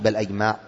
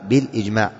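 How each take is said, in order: First: The hamza is voiced with an 'a' vowel. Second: The hamza is voiced with an 'i' vowel. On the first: The speaker calls it wrong. "مش بالأجماع" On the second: The speaker calls it right. "من تحت مكسورة"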